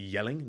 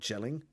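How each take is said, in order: First: The name begins with a Y sound. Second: The name begins with a J sound. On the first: The speaker calls it right. "it's actually yelling" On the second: The speaker calls it wrong. "not gelling"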